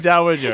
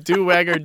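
First: The word is given its usual pronunciation. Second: The word is pronounced the way it is spelled. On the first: The speaker calls it right. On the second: The speaker calls it wrong.

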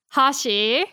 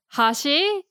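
First: It has the pitch accent of 'chopsticks'. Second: It has the pitch accent of 'edge'. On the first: The word means chopsticks. "that means chopsticks" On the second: The word means edge. "it means the edge"

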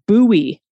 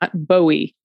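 First: It is said like the Bowie knife. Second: It is said unlike the Bowie knife. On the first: The speaker calls it right. "is pronounced Bowie" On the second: The speaker calls it wrong. "not Bowie"

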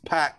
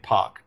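First: The name has the American pronunciation. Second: The name has the hometown crowd's local pronunciation. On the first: "in America, it's very clearly they're like this Pac" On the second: "they were chanting Pac"

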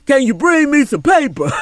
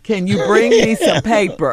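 First: It is said in a put-on, imitated voice. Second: It is said in the speaker's own voice.

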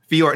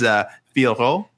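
First: The surname is said in a shortened, simplified form. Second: The surname is said in its full form. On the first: This is the easier version used by commentators. The speaker calls it wrong. "the commentary team was going with Manon Fior for her name" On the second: This is the name's real pronunciation. The speaker calls it right. "But it is Fioro"

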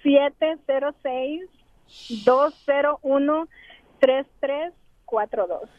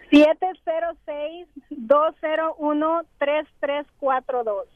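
First: The number is said more slowly. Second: The number is said at normal, faster speed.

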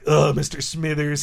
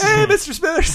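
First: It is said in an annoyed, grudging tone. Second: It is said in a warm, friendly tone.

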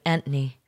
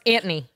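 First: It is said in a British accent. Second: It is said in a New York accent.

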